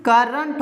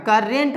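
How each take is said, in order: First: करंट as "kur-runt"; correct pronunciation. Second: करेंट as "kur-rent"; wrong pronunciation. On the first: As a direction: schwa in the second syllable of करंट. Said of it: "इसीलिए यहाँ भी". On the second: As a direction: clear "eh" in the second syllable of करेंट. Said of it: "करेंट नहीं". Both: Shown as a demonstration.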